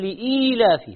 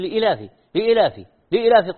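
First: The word has a long ee after hamza. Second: The word has no long ee after hamza. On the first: The speaker calls it right. "فيها ياء لام همزة ياء" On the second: The speaker calls it wrong. "هذا إذا نطقها صح هو يمكن هو"

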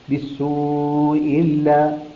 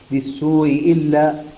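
First: The long vowel before the hamza is held medium. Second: The long vowel before the hamza is held short. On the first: "بالتوسط" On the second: "بالقصر"

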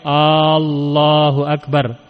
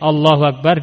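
First: The first vowel of Allah is drawn out long. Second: The first vowel of Allah is short. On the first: It becomes a question asking whether God is greatest. The speaker calls it wrong. "seperti dia memanjangkan hamzah yang pertama" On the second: It is a statement that God is greatest. The speaker calls it right. "Harusnya Allahu Akbar"

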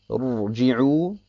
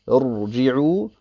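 The two takes are said the same way.

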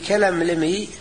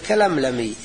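First: The vowel after the second L is 'i'. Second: The vowel after the second L is 'a'. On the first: The word is read as an imperative. "فصارت مثل حروف سمسمي، يكون أحسن لقراءة البيت" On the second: The word is read as a past-tense verb. "يصير فعل الماضي"

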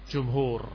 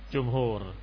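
Both takes have the same delivery.

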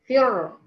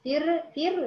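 First: The r is heavy, with the tongue back raised. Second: The r is light, with the tongue low. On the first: The speaker calls it right. "ارتفع باقصى اللسان" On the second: The speaker calls it wrong. "ما قلتش فرقه"

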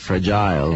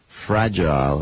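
First: The stress is on the second syllable. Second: The stress is on the first syllable. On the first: The speaker calls it wrong. "Stai mettendo la pronuncia sulla I" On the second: The speaker calls it right. "L'intonazione all'inizio"

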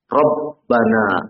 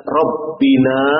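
First: The vowel after 'rabb' is a. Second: The vowel after 'rabb' is i. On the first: The speaker calls it right. "tapi dibaca Rabbana, mansub" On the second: The speaker calls it wrong. "tidak dibaca Rabbina"

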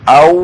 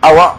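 First: The word ends in a vowelless w sound. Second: The word ends with an added a vowel. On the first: It is a conjunction meaning or. "هكذا بالواو الساكنة" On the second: It is a question particle followed by and. "فتكون الهمزة للاستفهام والواو عطف"

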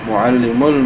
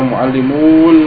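First: The vowel before the l is kept short. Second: The vowel before the l is drawn out long. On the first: The speaker calls it right. "kalau bertemu dengan alif lam ya enggak bisa panjang" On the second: The speaker calls it wrong. "Bukan dibaca mu'allimul, bukan"

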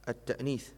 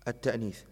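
Both takes have the same delivery.

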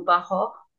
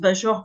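First: The name is said with Polish-style sounds. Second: The name is said with French-style sounds. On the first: "j'imagine que en polonais, ça serait plutôt Bachor" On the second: "je ne sais pas si on prononce Bachor, forcément nous en tant qu'ancien, on a envie de le faire"

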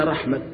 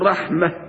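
First: The word ends with a t sound. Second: The word ends with an h sound. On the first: "وبعضهم يقف بالتاء" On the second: "الأفصح فيها أن يوقف عليها بالهاء"

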